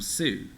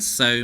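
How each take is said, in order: First: The vowel sounds like the oo in too. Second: The vowel sounds like the oh in go. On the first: The reader applies general spelling rules without knowing the word. The speaker calls it wrong. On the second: The reader knows what the word means. The speaker calls it right.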